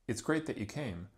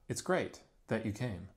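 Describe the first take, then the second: First: It runs on with no pause after great. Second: There is a pause after great. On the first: The speaker calls it right. "extraposition sounds like" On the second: The speaker calls it wrong.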